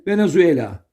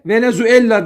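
First: Venezuela with a short, single L. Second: Venezuela with a long, doubled L; wrong double L. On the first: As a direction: keep the L of Venezuela brief. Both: Shown as a demonstration. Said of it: "Tek L ile yazılır".

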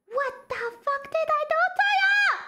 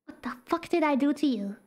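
First: High, fast wail of protest; exasperated outcry. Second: Said in the usual way. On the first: Real, not acted. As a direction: protest in a high, aggrieved cry. Repeats complaint in high outcry.

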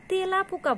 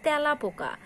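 First: তেলা পোকা with a tight "e", "te-la"; closed e. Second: তেলা পোকা said "tae-la po-ka"; open ae. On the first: Teacher showing what we don't say, closed e in তেলা. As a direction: keep the e of তেলা closed, as spelled. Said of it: "বলি না". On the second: Teacher showing what we say, open ae in তেলা. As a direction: open the first vowel of তেলা wide. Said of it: "আমরা বলি". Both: Shown as a demonstration.

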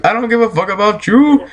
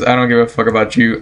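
First: Higher-pitched, defiant-sounding insistence; emphatic repeat. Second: Said in the usual way. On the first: Real, not acted. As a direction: pitch jumping up, rising on YOU.

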